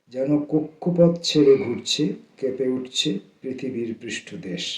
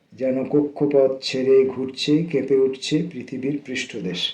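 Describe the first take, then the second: The two takes are said the same way.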